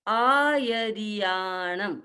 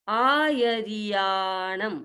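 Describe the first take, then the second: Both takes have the same delivery.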